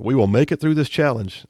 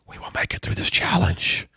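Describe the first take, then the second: First: It is spoken in a normal reading voice. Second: It is spoken in a whisper.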